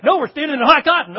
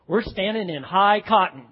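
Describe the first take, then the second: First: Loud, high, quick exclamation; emphatic correction. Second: Said in the usual way. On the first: Acted. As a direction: burst in to set the newcomer straight. Acted insistent reply to confused newcomer.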